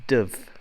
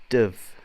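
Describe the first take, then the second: The two takes are said the same way.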